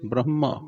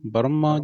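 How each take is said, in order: First: An h sound is heard before the m. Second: No h sound is heard before the m. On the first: The speaker calls it right. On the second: The speaker calls it wrong.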